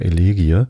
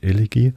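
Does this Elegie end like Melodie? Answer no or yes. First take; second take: no; yes. First: The word does not end like Melodie. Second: The word ends the same way as Melodie. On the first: The speaker calls it wrong. "Ich sage immer Elegie, was dann vollkommen falsch ist" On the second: The speaker calls it right. "Ich soll an Melodie denken, wenn ich Elegie ausspreche"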